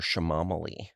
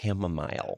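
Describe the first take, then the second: First: It is said with a sh sound, ending in -ali. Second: It is said in the usual way, ending in -mile. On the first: A restaurant customer mispronounced the word. The speaker calls it wrong. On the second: This is the word the customer meant. The speaker calls it right.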